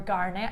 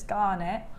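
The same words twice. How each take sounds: First: It is said in a Gloucestershire accent. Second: It is said in the speaker's usual accent.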